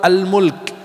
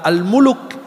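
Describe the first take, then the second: First: The L runs straight into the K. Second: An extra vowel separates the L and K. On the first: The speaker calls it right. "Surat Al-Mulk" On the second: The speaker calls it wrong. "Kalau Al-Muluk itu orang-orang di pinggir jalan"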